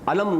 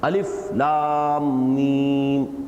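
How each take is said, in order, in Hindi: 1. अक्षर मिलकर एक छोटा शब्द बन जाते हैं। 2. हर अक्षर अलग-अलग, एक-एक करके बोला जाता है। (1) "अलम नहीं कर पढ़ेंगे इसको" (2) "हर हर्फ को जुदा जुदा पढ़ेंगे"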